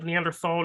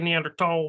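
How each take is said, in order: First: The ending is said with a th sound. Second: The ending is said with a plain t sound. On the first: This is the speaker's own way of saying it. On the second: This is the other person's way of saying it.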